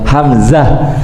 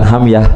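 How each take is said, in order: First: The middle consonant is a z sound. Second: The middle consonant is a y sound. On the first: The speaker calls it right. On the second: The speaker calls it wrong. "Bukan hamyah"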